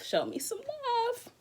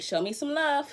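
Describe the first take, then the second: First: "Show me some love" sung out high and slow, drawing out "love"; high slow plea. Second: Said in the usual way. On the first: Shown as a demonstration. Streamer begging viewers for donations in a high, slow plea.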